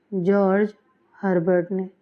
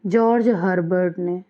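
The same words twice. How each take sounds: First: George, pause, then Herbert ने said apart and deliberately; name spelled out with pauses. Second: Said in the usual way. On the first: Shown as a demonstration. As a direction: dictate George Herbert ने word by word for notes. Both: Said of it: "तो किसने अपनी poems को in shape में लिखा है?".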